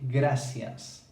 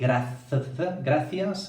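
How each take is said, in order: First: The middle consonant is an s sound. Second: The middle consonant is a th sound. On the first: The speaker calls it right. "we say gracias" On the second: The speaker calls it wrong. "So we don't say gracias"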